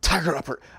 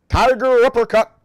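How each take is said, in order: First: It is said in a breathy voice. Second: It is said in a full, non-breathy voice.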